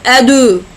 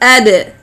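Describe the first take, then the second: First: The d is followed by a u vowel. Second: The d bounces with no full vowel after. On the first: The speaker calls it wrong. "nor like dhamma, like adu" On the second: The speaker calls it right. "It is ad, ad, like this"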